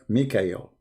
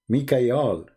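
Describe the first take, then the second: First: The last syllable is said with an 'el' vowel. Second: The last syllable is said with an 'al' vowel. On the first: This is the later form of the name. The speaker calls it wrong. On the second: This is the older form of the name. The speaker calls it right.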